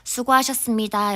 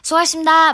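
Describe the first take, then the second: First: Every syllable is pronounced clearly and fully. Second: The syllables are slurred and run together. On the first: "이렇게 말고" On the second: "막 이렇게 하잖아요"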